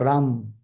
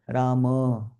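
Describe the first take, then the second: First: The name ends on the 'm' sound. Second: The name ends in an 'a' vowel. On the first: The speaker calls it wrong. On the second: The speaker calls it right.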